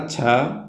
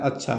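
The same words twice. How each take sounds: First: The word is said with a marked, expressive tone. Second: The word is said in a plain, neutral tone. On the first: The meaning is different from agreement. "उसके उच्चारण में थोड़ा सा भाव भंगिमा में परिवर्तन हुआ" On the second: Everything is fine. "Simple सा जवाब देता है"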